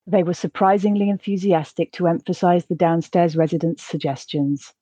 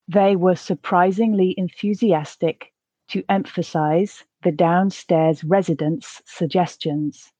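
First: The sentence is spoken at a natural pace. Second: The sentence is spoken slowly. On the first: "the second at a more natural pace" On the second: "the first time slowly"

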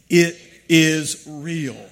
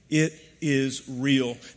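First: It is said with strong, fervent conviction. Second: It is said plainly, with little conviction. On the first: "Now with some faith" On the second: "Say that with me"

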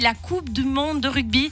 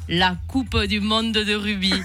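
First: It is said in a standard French accent. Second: It is said in a southwestern French accent.

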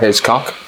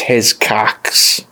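First: The name ends without the final s sound. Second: The name ends with a final ks sound.

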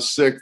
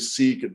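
First: The word sounds just like 'sick'. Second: The word does not sound like 'sick'. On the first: The speaker calls it right. "they pronounce it Sikh the same way we would say, you know, I got sick" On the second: The speaker calls it wrong. "a lot of people would say Sikh"

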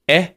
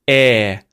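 First: The vowel is held only briefly. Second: The vowel is held a moment longer. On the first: "the short one" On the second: "the longer one"

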